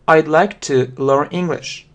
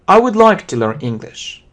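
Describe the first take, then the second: First: "I would" is shortened to one syllable. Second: "I would" is said as two full words.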